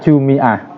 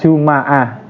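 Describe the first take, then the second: First: The m is followed by an i vowel. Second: The m is followed by an a vowel.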